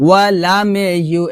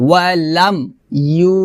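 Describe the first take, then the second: First: "ওয়ালামে ইউ" with long a and extra "me"; wrong added vowel. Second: "ওয়ালাম ইউ" with m shut before long yu; closed m, separated. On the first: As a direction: run it together as walaame-yu. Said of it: "এটা হবে না". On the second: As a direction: close "ওয়ালাম" on m, then hold "ইউ". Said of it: "হবে". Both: Shown as a demonstration.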